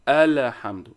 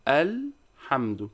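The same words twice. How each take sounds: First: The lam is followed by a short vowel. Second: The lam is held without a following vowel. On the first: The speaker calls it wrong. "Some people are saying الحمد" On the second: The speaker calls it right. "It should be الحمد. the lam here is sukun"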